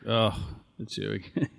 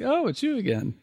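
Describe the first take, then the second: First: It is said in a grumpy, unenthusiastic tone. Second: It is said in a cheerful, welcoming tone.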